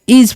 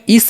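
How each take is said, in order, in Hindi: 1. 'is' का अंत भनभनाती z ध्वनि से होता है। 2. 'is' का अंत फुफकार वाली s ध्वनि से होता है। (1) "एस को हम यहाँ पर ज पढ़ते हैं" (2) "इस नहीं"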